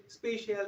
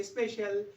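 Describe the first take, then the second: First: Said in the usual way. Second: "special" with a short i before the s; added initial vowel. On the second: Shown as a demonstration. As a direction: say "special" as "is-peshal". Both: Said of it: "it should not be like that".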